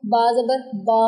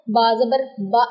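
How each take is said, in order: First: Last बा held long; over-lengthened vowel. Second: Last बा clipped short with a catch; jerked short vowel. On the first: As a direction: drag out the final बा. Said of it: "ना ही इनको लंबा कर देना". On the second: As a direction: jolt the final बा to a stop. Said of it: "झटका नहीं आने देना". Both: Shown as a demonstration.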